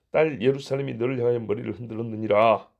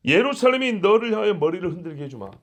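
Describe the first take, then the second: First: Said in the usual way. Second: Louder, emphatic scolding on 예루살렘이; God vowing revenge on the mocking king; stern rebuke. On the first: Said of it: "사내립 너 이놈 새끼". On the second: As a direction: hammer the threat home like a judge. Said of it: "꾸짖는 것처럼".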